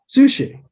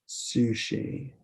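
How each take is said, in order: First: It is said promptly, with a bright eager tone. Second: It is said hesitantly, with a drawn-out reluctant tone. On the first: The person really wants sushi. "that person definitely wants sushi" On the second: The person does not really want sushi. "they definitely don't want sushi if they say it like that"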